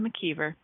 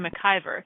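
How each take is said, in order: First: The name is said as McKeever. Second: The name is not said as McKeever. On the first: The speaker calls it right. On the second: The speaker calls it wrong.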